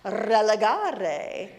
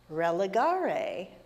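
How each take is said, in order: First: The R sounds are rolled. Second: The R sounds are plain, not rolled.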